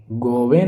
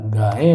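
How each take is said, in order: First: गौवें with "go" and a v; rounded first vowel in गौवें; wrong form shown. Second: गायें with long "gaa"; correct form shown. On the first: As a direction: say गौवें as "go-ven". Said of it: "गौवें नहीं होगा". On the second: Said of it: "गायें होगा". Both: Shown as a demonstration.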